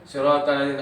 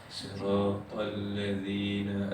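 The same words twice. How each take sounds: First: It is recited quickly, with stumbling repetitions. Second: It is recited slowly and evenly. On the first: Reading this way causes many problems. The speaker calls it wrong. "kalau tuan baca laju" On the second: Reading this way is easy. The speaker calls it right. "Kalau tuan baca begini senang"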